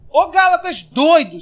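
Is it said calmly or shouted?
shouted. It is said loudly, like an exasperated shout.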